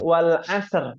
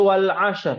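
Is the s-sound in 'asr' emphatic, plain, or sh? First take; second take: plain; sh. First: The s-sound is a plain, light s. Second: The s-sound is pronounced as sh. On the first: "Kalau sin wal asr" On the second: "Kalau sya jadi wal asr"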